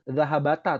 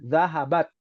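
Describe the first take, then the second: First: The final t is followed by a vowel. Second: The word ends on a bare t sound. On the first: The speaker calls it wrong. "Salah ya" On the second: The speaker calls it right. "Yang betul taknya sukun"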